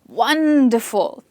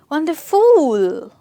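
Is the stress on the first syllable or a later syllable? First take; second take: first; later. First: The stress is on the first syllable. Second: The stress falls on a later syllable. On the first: The speaker calls it right. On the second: The speaker calls it wrong.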